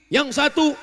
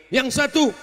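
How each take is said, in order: No difference in how they are said.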